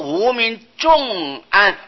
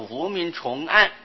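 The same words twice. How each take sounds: First: The third syllable is read as in 'heavy'. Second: The third syllable is read as in 'layered'. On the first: The darkness of ignorance is very severe. The speaker calls it wrong. "假如念作无明重暗，用音很重，念起来啊就没有那么调顺" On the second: The darkness of ignorance is layered upon itself. The speaker calls it right. "就念作无明重暗，重重叠叠的那个重啊"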